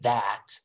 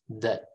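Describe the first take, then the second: First: The word is said with a full vowel. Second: The word is said with a reduced schwa vowel. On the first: The speaker calls it wrong. "We don't say that" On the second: The speaker calls it right. "We say the. Schwa"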